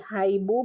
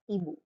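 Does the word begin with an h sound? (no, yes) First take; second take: yes; no. First: The word starts with a sounded h. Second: The word starts directly with a vowel. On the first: The speaker calls it wrong. "You do not say" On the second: The speaker calls it right.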